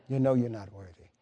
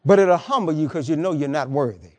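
First: Dropped low and soft, as if to himself; soft repeat. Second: Said in the usual way. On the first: Real, not acted. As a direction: let it sink in quietly, almost a murmur. Preacher repeats the line softly.

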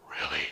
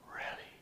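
First: Much lower-pitched voiced "Really?"; patient's questioning reply. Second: Soft whispered "Really?"; hushed echo. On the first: Patient answering the compliment, in a deep voice. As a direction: drop deep for the other man's question. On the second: Retold or imitated. Answering the patient's question, hushed whisper. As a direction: whisper it back quietly.

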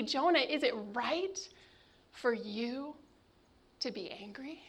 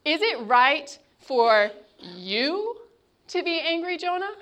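First: Hushed divine question to Jonah; God's soft question. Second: God's gentle rebuke. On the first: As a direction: ask it gently, almost a whisper. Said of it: "God asks". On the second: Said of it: "picture the intonation in God's voice". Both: Acted.

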